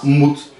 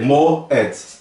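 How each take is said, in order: First: The vowel is one single oo sound. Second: The vowel letters are split into two sounds. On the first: The speaker calls it right. "Se soa como U" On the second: The speaker calls it wrong. "Eu não vou ler mo, et"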